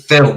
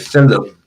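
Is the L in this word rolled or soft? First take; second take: soft; rolled. First: The word is said with a soft, plain L. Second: The word is said with a rolled, lengthened L. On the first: This is how other people say it. "we don't say film" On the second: This is how people say it in the speaker's home region. "where I'm from, ... We say film"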